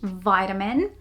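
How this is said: It is pronounced the American English way. "not vitamin"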